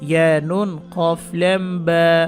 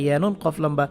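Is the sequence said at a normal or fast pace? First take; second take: normal; fast. First: The letter names are said at normal speed. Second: The letter names are said quickly, run together. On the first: "যেইভাবে বললাম normal" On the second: "normal এর থেকে আরও ফাস্টার বলতে হবে"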